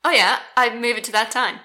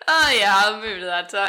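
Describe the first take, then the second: First: It sounds overly invested and eager. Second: It sounds relaxed and casual.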